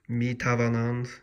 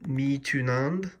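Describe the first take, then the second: First: The middle keeps the full 'ava' with a v sound. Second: The middle is shortened to a single 'oo' sound. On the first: This is the formal full form. "You always have to say like mi tavanand" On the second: This is the casual spoken form. "the more colloquial pronunciation"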